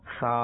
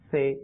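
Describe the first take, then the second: First: It ends in an Arabic-style 'a' vowel. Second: It ends in an Urdu-style 'e' vowel. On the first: The speaker calls it right. "আরবি উচ্চারণ।" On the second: The speaker calls it wrong. "Urdu উচ্চারণ।"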